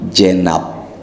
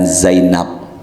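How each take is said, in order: First: The name begins with a j sound. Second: The name begins with a z sound. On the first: The speaker calls it wrong. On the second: The speaker calls it right.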